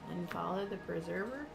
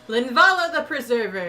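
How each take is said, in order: First: It is said hesitantly, without confidence. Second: It is said firmly, with confidence.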